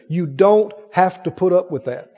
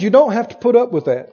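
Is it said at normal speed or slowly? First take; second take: slowly; normal speed. First: It is said very slowly. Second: It is said at normal speed.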